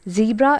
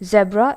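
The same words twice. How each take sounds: First: It is said with an American pronunciation. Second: It is said with a British pronunciation. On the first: "the American pronunciation" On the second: "the British pronunciation"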